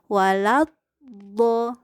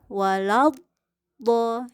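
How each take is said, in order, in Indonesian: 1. Bunyi L terdengar jelas dan terpisah. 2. Bunyi L terdengar jelas dan terpisah.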